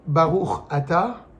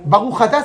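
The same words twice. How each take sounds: First: The two words are said separately, without linking. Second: The two words are run together with a liaison. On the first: The speaker calls it right. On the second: The speaker calls it wrong.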